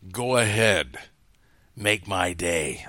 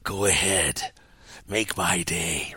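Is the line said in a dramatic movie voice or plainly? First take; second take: plain; dramatic. First: It is said in a plain, ordinary voice. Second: It is said in a gruff, dramatic voice. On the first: The speaker calls it wrong. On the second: The speaker calls it right.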